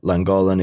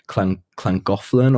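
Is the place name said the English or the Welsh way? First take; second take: English; Welsh. First: The name is said with an English pronunciation. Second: The name is said with a Welsh pronunciation. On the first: "You'd say it Llangollen if you're English" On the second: "or you'd say it like Llangollen or Llangollen if you're Welsh"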